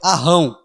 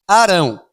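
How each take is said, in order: First: The R is a strong double R. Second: The R is a light single tap. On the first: "Se tivesse dois R, eu acho que a pronúncia correta é Arrão" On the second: "quando tem um R só, eu falo Arão"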